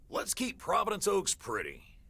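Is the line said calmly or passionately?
passionately. It is said with more passion.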